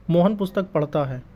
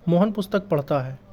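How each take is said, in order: Both takes have the same delivery.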